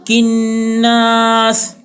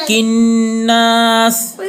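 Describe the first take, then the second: Both takes have the same delivery.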